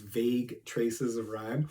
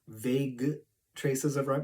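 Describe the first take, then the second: First: The phrase is said with ordinary pronunciation. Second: A word in the phrase is pronounced in an odd way.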